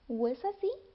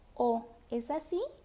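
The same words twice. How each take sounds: First: The o becomes a glide before the e. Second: The o is a full separate vowel.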